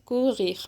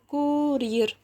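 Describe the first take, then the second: First: The r is a throaty, gh-like sound. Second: The r is a front, tongue-tip r.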